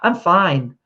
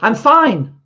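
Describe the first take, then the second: First: It sounds sincere and straightforward. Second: It sounds curt and dismissive.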